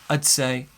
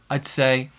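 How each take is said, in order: Both takes have the same delivery.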